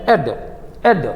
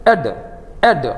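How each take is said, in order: No difference in how they are said.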